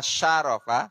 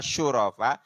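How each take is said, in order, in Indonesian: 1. Suku kata pertama memiliki vokal a. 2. Suku kata pertama memiliki vokal u. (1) "shinnya dibaca fat, fathah" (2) "atau dibaca dom, doma"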